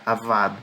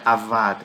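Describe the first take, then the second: The two takes are said the same way.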